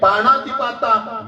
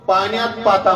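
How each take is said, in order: First: The first part is said as 'panati'. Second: The first part is said as 'panyat'. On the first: The speaker calls it right. "म्हणून आपल्याला समजण्याचे आहे" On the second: The speaker calls it wrong. "काही लोक पाण्यात पाता म्हणतात"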